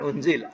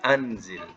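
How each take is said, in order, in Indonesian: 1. Kata ini dimulai dengan vokal 'u'. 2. Kata ini dimulai dengan vokal 'a'. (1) "Bukan unzil" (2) "atas, bari atas"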